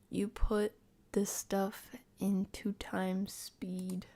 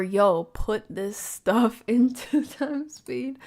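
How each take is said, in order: First: Very slow, subdued delivery; drawn-out, softer reading with gaps; slow, hesitant reading. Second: Loud, slow, laughing "yo"; louder, drawn-out amused disbelief; amused exclamation. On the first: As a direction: read it out haltingly, word by word. Reading one take, then another. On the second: Second take, excited reading. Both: Shown as a demonstration.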